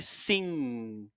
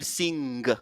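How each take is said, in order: First: It ends on ng with no g released. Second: A g sound is released at the end. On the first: The speaker calls it right. "on bloque pour ne pas faire sortir le son de g" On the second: The speaker calls it wrong. "On ne va pas dire sing. Non"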